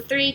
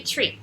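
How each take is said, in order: First: "three" with TH, tongue between teeth; "three" with TH, not T. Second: "tree" with a plain T, tongue inside; "tree" with T, not TH. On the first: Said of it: "É interessante de tentar". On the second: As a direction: open "tree" on a crisp T before R. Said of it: "até você conseguir a diferença". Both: Shown as a demonstration.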